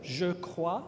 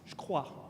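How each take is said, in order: First: The vowel of je is fully pronounced. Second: The vowel of je is dropped entirely.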